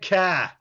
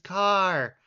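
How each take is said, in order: First: The final R sound is dropped. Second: The final R sound is clearly pronounced. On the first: The speaker calls it wrong. "there's an R at the end of it" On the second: The speaker calls it right. "It's car"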